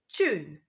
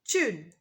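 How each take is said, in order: The two takes are said the same way.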